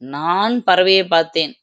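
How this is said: The stress is on the first word. It was me who saw it, not you. "நான் என்னும் சொல்லுக்கு அழுத்தம் கொடுத்தால்"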